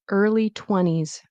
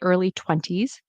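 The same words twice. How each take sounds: First: The T in twenties is dropped. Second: The T in twenties is clearly pronounced. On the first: This is how native speakers usually say it. "we will drop the T sound" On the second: This is careful speech. "In careful speech"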